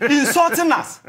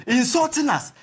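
First: Laughing while repeating insulting; bitter laugh through the words; laughing outrage. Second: Said in the usual way. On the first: Real, not acted. Panelist laughing at the insult.

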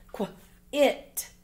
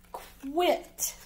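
First: "Qu, it" split into a short kw, then it; sounded out. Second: Said in the usual way. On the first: Shown as a demonstration. Teacher reading words with pupils, "Qu, it" in separate parts. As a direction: say "Qu", pause, then "it".

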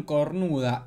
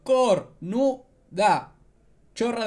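First: Said in the usual way. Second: COR-NU-DA, drawn out syllable by syllable; mock a slow heckle, stretching each syllable of "Cornuda"; imitated heckler's yell. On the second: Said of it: "una chica gritando". (grito imitado, «Cornuda» lento y silabeado)

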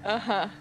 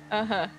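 No difference in how they are said.

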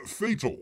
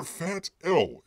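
First: Said in the usual way. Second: "Fat L" as two separate words, drawn out slowly; slow, spelled-apart "Fat L"; split pronunciation. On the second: Shown as a demonstration. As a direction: say "Fat L" as fat, then the letter L. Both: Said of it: "if you people prefer out there".

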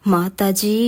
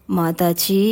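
First: Said in the usual way. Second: Lightly voiced weepy screen hero; Sivaji Ganesan style. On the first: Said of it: "கழுத்தை பற்றி தொங்கினாள்". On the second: A narrator's reading. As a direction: plead like a tragic film hero calling his mother. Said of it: "Sivaji கணேசனை pole அழைத்தவன்".

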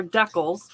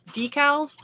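First: "decals" as DECK-als; regional pronunciation. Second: "decals" as DEE-cals; regional pronunciation. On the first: Host showing regional variants, "decals" said DECK-als. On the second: Host showing regional variants, "decals" said DEE-cals. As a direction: say "decals" with a long ee first. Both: Shown as a demonstration. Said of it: "depending on where you're from".

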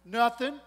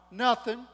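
First: Loud defiant "Nothing." after a pause. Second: Short, loud, defiant "Nothing.". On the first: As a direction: let a pause hang, then "Nothing." again. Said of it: "there was a pause". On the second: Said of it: "she's still defiant". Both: Acted.

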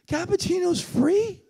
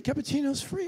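First: High, slow, drawn-out rise on "free"; incredulous question. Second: Said in the usual way. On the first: Retold or imitated. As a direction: savour the disbelief, stretching it upward. Repeats the attendant in disbelief.

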